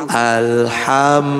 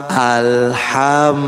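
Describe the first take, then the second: Both takes have the same delivery.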